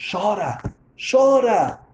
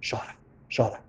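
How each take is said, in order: First: Rising higher with each repeat; urging. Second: Said in the usual way. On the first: Retold or imitated. Old woman telling stranger to cry, urging. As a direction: urge it on with climbing pitch.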